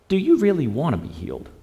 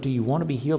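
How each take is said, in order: First: It sounds doubtful and challenging toward the man. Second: It sounds like a sincere, curious question.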